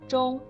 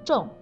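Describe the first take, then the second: First: The syllable is said with a high level tone. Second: The syllable is said with a falling tone. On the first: "读一声中" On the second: "读成重4 声"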